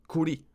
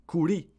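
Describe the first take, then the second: No difference in how they are said.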